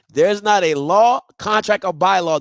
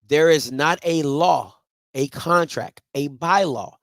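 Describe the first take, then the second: First: It is said at normal speed. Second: It is said slowly and deliberately.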